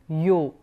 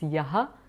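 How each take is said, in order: First: The word ends in an 'o' sound. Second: The word ends in a 'ha' sound. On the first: "visarga sandhi there" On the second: "if you remove the sandhi, it becomes yaha"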